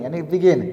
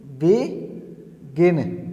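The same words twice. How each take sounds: First: Said in the usual way. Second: Stretched out slowly, syllable by syllable; slow demo word. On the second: Shown as a demonstration. Teacher showing the syllables to students, said slowly. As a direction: draw out begin slowly so each syllable is heard. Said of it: "जैसे कि".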